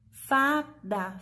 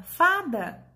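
First: Said in the usual way. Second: Fada higher and louder, falling; emphatic word. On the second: Shown as a demonstration. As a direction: say Fada proudly as the answer. (Fada dito alto e enfático) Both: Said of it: "Vamos separar as sílabas?".

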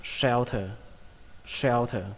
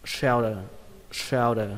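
First: Shelter with sh and an aspirated t, "shel-tơ". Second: Shelter with the t softened to d, "shel-dơ"; second reading, D. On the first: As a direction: say shelter ending in a puffed "thờ". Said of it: "cái chữ thờ này". (đọc shelter với âm cuối "thờ" bật hơi) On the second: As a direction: say shelter ending in "đờ". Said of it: "Cách đọc thứ hai". (đọc shelter với "thờ" thành "đờ") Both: Shown as a demonstration.

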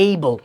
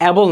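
First: Able with a long "ay"; correct pronunciation. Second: Able with a short "a" as in apple; wrong pronunciation. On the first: Teacher modelling the word for learners, correct pronunciation. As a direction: say able as "AY-bul". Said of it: "এটার উচ্চারণ হবে হচ্ছে". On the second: Teacher showing the common mistake, mispronounced. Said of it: "এটা কিন্তু able না". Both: Shown as a demonstration.

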